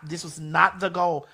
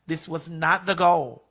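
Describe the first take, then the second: No difference in how they are said.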